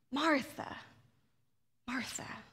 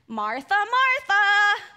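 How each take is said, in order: First: Soft, lower, tender Martha, Martha; compassionate naming. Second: Loud, slow, scolding Martha, Martha; finger-wagging chiding. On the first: Jesus gently speaking to worried Martha, compassionate. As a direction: say it like a loving friend. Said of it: "a recognition of a relationship". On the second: Jesus scolding a busy Martha, loud chiding. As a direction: scold her name like a stern parent. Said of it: "imagine Jesus waving his finger". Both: Shown as a demonstration.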